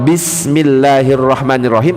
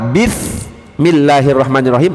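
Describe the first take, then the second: First: The word 'ism' is said with an s sound. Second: The word 'ism' is said with a th sound. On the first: In the name of God, the Merciful. The speaker calls it right. "Dengan nama Allah" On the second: With the sin of God, the Merciful. The speaker calls it wrong. "Dengan dosa Allah"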